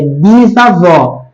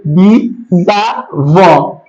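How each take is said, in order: First: Said in the usual way. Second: "Bisavó" very slowly split into bi, za, vó; syllable by syllable. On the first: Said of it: "Deixa eu fazer de laranjinha o S aqui do bis". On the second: Shown as a demonstration. Teacher showing the class how the prefix splits, "Bisavó" said syllable by syllable. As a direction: break "Bisavó" into three drawn-out syllables, S joining the A. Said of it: "então eles ficam juntos".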